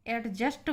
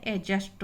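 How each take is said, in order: First: एडजस्ट with the D sounded before the J; common mispronunciation. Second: एडजस्ट with a silent D, as 'a-just'; correct pronunciation. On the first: Teacher shows students how people usually say it, D pronounced. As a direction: say एडजस्ट as 'ad-just', D audible. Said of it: "एडजस्ट बोलते हैं हम लोग". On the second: Teacher corrects students' habit, D left silent. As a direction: drop the D in एडजस्ट, go straight to J. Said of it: "एडजस्ट होता है". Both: Shown as a demonstration.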